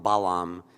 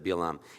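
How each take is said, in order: First: The name is said in its English form. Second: The name is said in its Hebrew form. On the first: "if you read the English, they call him Balaam" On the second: "instead of Bil'am"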